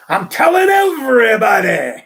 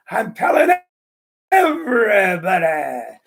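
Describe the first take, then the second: First: Put-on loud, laughing old-man boast; gleeful punchline shout. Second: Lightly voiced old man, slow on everybody; punchline savoured. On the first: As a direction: blurt it out, cracking up. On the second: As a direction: relish the punchline once more. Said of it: "comedian repeats his punchline".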